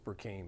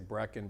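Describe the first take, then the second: First: The name is said with a 'k' before 'een'. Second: The name is said as two syllables, Brecken. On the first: This is the name as it should be said. The speaker calls it right. "It's Burkeen" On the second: This is how other people mangle the name. The speaker calls it wrong. "People butcher my name all the time. They say Brecken"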